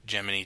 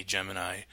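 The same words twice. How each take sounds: First: First Gemini with a final "nee"; Gemini ending in "ee". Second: Second Gemini with a final "nigh"; Gemini ending in "eye". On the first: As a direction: Gemini as JEM-in-ee. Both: Shown as a demonstration. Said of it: "What is the proper pronunciation".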